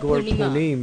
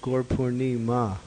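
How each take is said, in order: First: The word ends in 'punim', with no final vowel. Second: The word ends in 'purnima', with an r sound. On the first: The speaker calls it wrong. "It's not Gorpunim" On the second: The speaker calls it right. "it's Gorpurnima"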